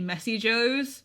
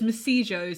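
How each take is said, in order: First: The name is said as Messy Joe's. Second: The name is run together as Masijo's. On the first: This is the real name of the restaurant. The speaker calls it right. "it's actually Messy Joe's" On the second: This is how a character mispronounces the name. The speaker calls it wrong. "he pronounces it as Masijo's"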